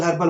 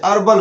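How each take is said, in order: First: "हर्बल" with the h sounded; common mispronunciation. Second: "अर्बल" with silent h, starting on the vowel; right demo: "अर्बल", h dropped; correct pronunciation. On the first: Retold or imitated. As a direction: start "हर्बल" on an audible h. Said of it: "बहुत सारे लोग हर्बल". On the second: Shown as a demonstration. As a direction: say "अर्बल" without any h. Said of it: "अर्बल होता है".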